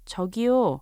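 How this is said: It is said in a polite, gentle tone.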